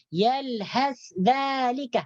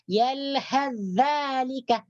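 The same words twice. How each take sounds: First: The s sound is kept separate before dh. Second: The s sound fully merges into the dh. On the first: The speaker calls it wrong. "jangan dibaca yalhas dzalika. Yalhas dzalika, bukan ya? Itu salah" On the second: The speaker calls it right. "Yang betul yalhas dzalika, diidghamkan dengan sempurna"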